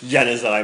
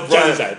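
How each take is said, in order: First: The name ends with an 'eye' sound. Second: The name ends with an 'edge' sound. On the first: This is the modern way. "Brian Moore wouldn't have had any of this Janny's Eye malarkey" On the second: This is the old-fashioned anglicized way. "That's how it would have been pronounced in the 90s. In the 70s"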